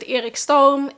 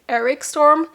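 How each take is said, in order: First: The name is said with a Swedish pronunciation. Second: The name is said with an English pronunciation. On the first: "We pronounce it" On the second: "If you would have been in like Australia, U K"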